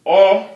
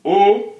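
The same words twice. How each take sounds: First: O as open "aw", pitched high; open dotted o. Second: O as closed "oh", pitched high. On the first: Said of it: "o with the dot". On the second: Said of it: "look at that". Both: Shown as a demonstration.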